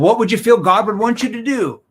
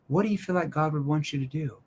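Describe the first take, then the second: First: It is said in a pushy, confrontational tone. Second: It is said in a soft, concerned tone. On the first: The speaker is pressuring the listener. The speaker calls it wrong. "that's more in your face" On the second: The speaker cares about the listener's family. The speaker calls it right. "Why would I use a concerned tone there at the end?"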